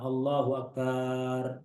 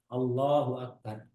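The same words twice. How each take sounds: First: The syllable 'bar' in Akbar is drawn out long. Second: The syllable 'bar' in Akbar is kept short. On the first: It turns into the word for a drum. The speaker calls it wrong. "Jangan ... ini nggak boleh" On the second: God is the greatest. The speaker calls it right. "tidak boleh memanjangkan baknya lafaz akbar"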